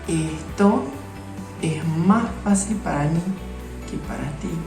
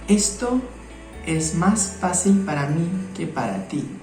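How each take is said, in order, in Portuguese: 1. Os sons de S são trocados por sons de R. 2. Os sons de S são pronunciados como S normal. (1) "nós vamos trocar o S por som de R" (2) "gramaticalmente falando correto"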